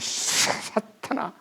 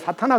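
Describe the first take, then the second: First: The first syllable is said forcefully and hard. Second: The first syllable is said plainly and simply. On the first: The speaker calls it wrong. "사자를 막 약간 좀 발음을 좀 세게 해가지고" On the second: The speaker calls it right. "간단하게 사탄아 그러면 되는데"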